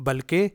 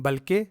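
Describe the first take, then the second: Both takes have the same delivery.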